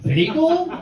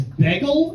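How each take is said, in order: First: "bagel" with a long ay, like "baygel"; New York bagel. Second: "bagel" with a Philly short e, like "beggle". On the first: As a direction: standard "bagel", rising. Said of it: "instead of". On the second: Fiance's Philly way of saying "bagel". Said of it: "She also says". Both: Shown as a demonstration.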